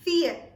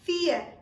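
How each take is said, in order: No difference in how they are said.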